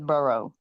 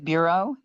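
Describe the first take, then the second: First: The word sounds like 'borough'. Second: The word sounds like standard 'bureau'. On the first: This imitates someone else's mispronunciation. The speaker calls it wrong. "he says borough" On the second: This is how the word should be said. The speaker calls it right. "when he says bureau"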